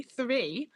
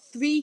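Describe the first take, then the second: First: "Three" said deliberately with a raised pitch; "Three" lifted as a pointed correction; careful "three". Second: Said in the usual way. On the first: Shown as a demonstration. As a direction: pronounce "Three" with a clear TH and R. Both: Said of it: "T H R double E".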